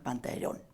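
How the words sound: The name is said with a Venetian dialect pronunciation.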